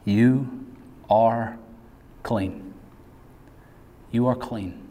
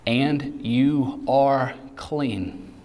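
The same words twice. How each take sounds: First: Preacher reassuring abuse survivors tenderly; tender assurance. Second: Very slow, drawn out words; preacher stressing the promise slowly; slow emphatic. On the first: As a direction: speak it gently to the hurt listener. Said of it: "the voice of Jesus saying to". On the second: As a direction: land each word slowly. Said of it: "listen to this". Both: Acted.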